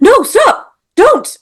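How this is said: It is said urgently, with exclamation.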